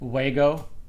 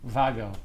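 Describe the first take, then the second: First: The word begins with a w sound. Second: The word begins with a v sound.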